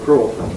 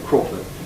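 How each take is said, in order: First: The first vowel is held at full length. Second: The first vowel is clipped short. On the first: "without pre-fortis clipping" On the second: "with pre-fortis clipping"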